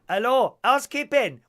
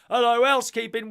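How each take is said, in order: First: It is said in a put-on foreign accent. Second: It is said in the speaker's ordinary accent.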